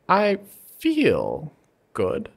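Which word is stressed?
feel. The stress is on the middle word.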